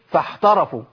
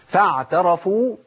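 First: The ع turns into a breathy ح sound. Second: The ع is voiced and clearly kept. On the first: The speaker calls it wrong. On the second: The speaker calls it right.

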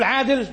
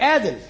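First: The word begins with a throaty ʿayn sound. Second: The word begins with a plain vowel sound. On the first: The speaker calls it right. "تقول له مسؤول عادل" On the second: The speaker calls it wrong. "ما ينطقوش العين"

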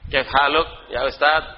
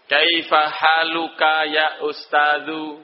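First: The words end without their final vowels. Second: The words end with their full final vowels. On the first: This is the everyday spoken style. "ngomong gitu kalau sudah bekerja di kedubes Saudi" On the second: This is the full formal reading style. "tidak boleh disukun terakhirnya. Jadi harus semuanya terakhirnya dibaca"

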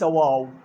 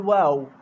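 First: The long vowel is heavy and full. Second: The long vowel is light and thin. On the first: The speaker calls it wrong. "وليس واو" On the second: The speaker calls it right. "منقول واو"

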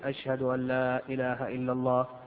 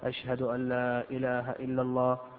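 The two takes are said the same way.

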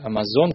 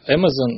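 First: The name is pronounced the Russian way. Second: The name is pronounced the English way. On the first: The speaker calls it right. "как у нас говорят" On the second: The speaker calls it wrong. "я его зачем-то назвал Amazon, но это просто я тупой"

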